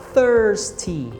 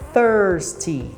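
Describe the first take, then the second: Both takes have the same delivery.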